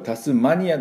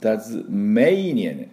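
First: The middle syllable is a short, flat 'ma'. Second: The middle syllable is a stressed 'may'. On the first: The speaker calls it wrong. "これタスマニアじゃなくて" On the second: The speaker calls it right. "タズメイニアっていうのが正しい、ネイティブの音になります。"

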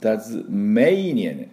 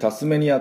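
First: The first syllable ends in a Z sound. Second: The first syllable ends in an S sound. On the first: The speaker calls it right. "Z の音で、目のところにアクセントありました" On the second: The speaker calls it wrong. "私たちタスメニアというふうに、読みますけれども"

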